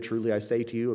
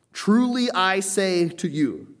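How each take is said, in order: First: Said in the usual way. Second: Slow, high, loud stress on Truly; emphatic proclamation. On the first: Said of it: "that you often see translated". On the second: Acted. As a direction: draw out Truly high and loud, then fall through the phrase. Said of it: "an emphatic statement".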